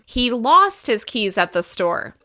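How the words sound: The word lost is stressed. The keys were lost, not forgotten or found. "We can also emphasize the verb"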